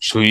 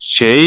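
First: The vowel sounds like 'ui'. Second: The vowel sounds like 'ei'. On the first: "আবার সুই এটা বললেও হবে" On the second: "বললাম না দুইটাই বলা যায়"

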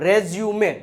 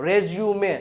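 The two takes are said the same way.

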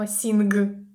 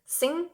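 First: A hard g sound is heard at the end. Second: It ends in a nasal with no g sound. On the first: The speaker calls it wrong. "Ми не читаємо sing" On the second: The speaker calls it right. "літера G в кінці не читається"

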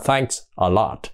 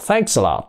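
First: The s is not linked into the next word. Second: The s runs straight into the following a. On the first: The speaker calls it wrong. "Chứ không phải là thanks a lot" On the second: The speaker calls it right. "Họ đọc là thanks a lot"

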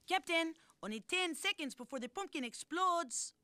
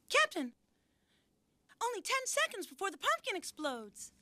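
First: It is said in a foreign accent. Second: It is said in a normal accent.

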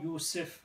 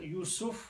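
First: The vowel after the s is i. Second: The vowel after the s is u. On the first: "with the Kasra" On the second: "with the Dhamma on the scene"

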